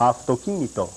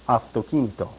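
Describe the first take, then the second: The two takes are said the same way.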